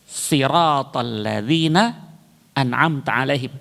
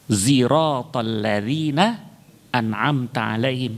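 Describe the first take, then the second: First: The first word begins with an emphatic s. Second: The first word begins with a z sound. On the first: This follows the common Hafs reading tradition. "Yang pertama dibaca dengan sod" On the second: This follows a third reading tradition. "dibaca dengan zai"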